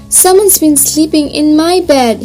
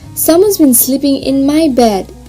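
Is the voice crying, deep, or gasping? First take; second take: crying; deep. First: It is said in a crying voice. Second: It is said in a deep, gruff voice.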